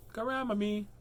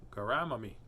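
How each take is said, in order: First: "Grandma me" pitched up high; lifted, playful "Grandma me"; high-pitched repeat. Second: Said in the usual way. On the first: Pretend. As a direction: play with "Grandma me" in a raised, silly pitch. Playing with the word grandma.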